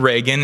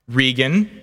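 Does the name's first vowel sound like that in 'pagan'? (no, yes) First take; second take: yes; no. First: The first vowel matches the vowel in 'pagan'. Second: The first vowel differs from the vowel in 'pagan'. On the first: This is how other people say the name. The speaker calls it wrong. "Reagan is the way that some other people say it" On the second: This is how the owner of the name says it. The speaker calls it right. "Regan is the way I say my name"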